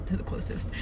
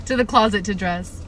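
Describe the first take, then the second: First: Said in the usual way. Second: "closet" said firmly and louder; loud, deliberate correction landing on "closet"; emphatic self-correction. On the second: Real, not acted. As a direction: punch "closet" to correct the slip. Emphatic correction of misread word.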